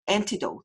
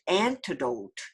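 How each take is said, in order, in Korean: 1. 첫 모음은 짧고 빠르게 발음합니다. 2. 첫 모음은 길게 늘여 발음합니다. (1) "antidote 이렇게 하지 말고" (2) "이렇게 길게 하면 조금 발음하기가 쉽습니다"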